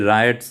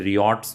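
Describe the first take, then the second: First: The first syllable sounds like 'rye'. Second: The first syllable sounds like 'ree'. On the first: The speaker calls it right. "ये रायट्स है" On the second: The speaker calls it wrong. "इसे रियॉट्स मत बोलना"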